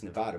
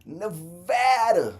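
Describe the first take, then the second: First: Said in the usual way. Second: Nevada stretched slow and loud, higher; drawn-out Nevada. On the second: Acted. Vlogger shouting his home state to chat, drawn-out and loud. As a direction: belt out Nevada long and proud.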